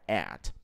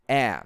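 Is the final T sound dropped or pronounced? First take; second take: pronounced; dropped. First: The final T sound is pronounced. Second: The final T sound is dropped. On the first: It is said as a word on its own. "você vai atribuir ao T no final da pronúncia" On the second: It is said quickly inside a phrase. "você não vai precisar pronunciar at"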